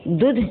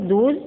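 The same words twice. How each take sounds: First: दूध with a short u, "dudh"; mispronounced दूध. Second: Said in the usual way. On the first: Shown as a demonstration. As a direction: say दूध with its vowel cut short. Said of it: "अशुद्ध है". (दूध को छोटे उ से "दुध" बोलना) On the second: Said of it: "दूध शुद्ध है".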